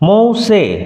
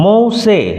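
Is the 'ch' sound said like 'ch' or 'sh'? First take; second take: sh; sh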